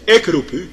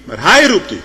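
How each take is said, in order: First: Said in the usual way. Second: Hij hit high and loud; stress on hij. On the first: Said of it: "ze zegt niet". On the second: Shown as a demonstration. Preacher to the congregation, "hij" punched loud. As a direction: punch the word hij, much louder. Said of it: "ze zegt niet, "Ik roep u".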